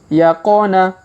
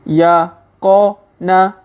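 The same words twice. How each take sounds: First: It is read at a fast pace. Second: It is read at a slow pace. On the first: "Kita baca dengan tempo cepat" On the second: "kita baca bersama pelan-pelan"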